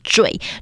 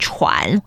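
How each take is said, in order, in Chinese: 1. 这个音节读 zhui。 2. 这个音节读 chuan。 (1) "那个字要念惴" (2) "有些人可能容易会把这个字念成喘"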